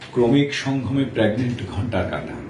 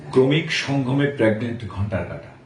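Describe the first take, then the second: No difference in how they are said.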